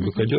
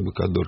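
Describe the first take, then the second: First: The vowel before the final r sounds like 'e'. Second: The vowel before the final r sounds like 'o'. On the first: This is the current form of the surname. The speaker calls it wrong. "Не Быкодер" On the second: This is the original form used on the Don. The speaker calls it right. "Быкодор она произносилась"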